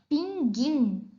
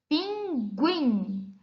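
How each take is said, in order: First: The g is followed directly by 'ee', no 'u'. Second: The g is followed by a 'u' glide before 'ee'. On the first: The speaker calls it wrong. "Se a vogal U não fosse pronunciada, nós pronunciaríamos essa palavra da seguinte forma" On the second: The speaker calls it right. "Nós lemos pinguim, guim. Observem que, nesse caso, a vogal U é pronunciada"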